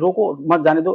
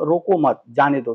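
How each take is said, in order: First: The pause comes right after the word roko. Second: The pause comes right after the word mat. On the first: Stop the person; do not let them go. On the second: Do not stop the person; let them go.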